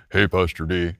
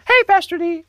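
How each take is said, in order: First: Put-on lower, deeper voice of the same kid now grown. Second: Much higher squeaky kid voice imitating a young boy; boy's unbroken voice. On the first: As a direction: drop it low like the boy whose voice has broken. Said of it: "he called me on the phone and goes". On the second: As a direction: chirp it like a kid before his voice broke. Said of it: "so he talked like this".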